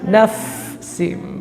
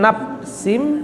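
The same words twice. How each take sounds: First: The middle consonant sounds like an F. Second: The middle consonant sounds like a P. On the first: The speaker calls it right. "lebih ke F ya" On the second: The speaker calls it wrong. "bukan ke P gitu. Bukan nafsim"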